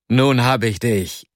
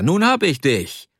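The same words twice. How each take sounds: First: Gleichmäßig, ohne Triumph gesprochen; leicht gerufen, langsam. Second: Höher, auf hab betont, fröhlich triumphierend; höher gerufen, das Wort hab betont. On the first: (leicht gerufen, langsam ausgekostet) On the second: (triumphierender Ruf, höher, Betonung auf hab) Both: Acted. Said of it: "rief er".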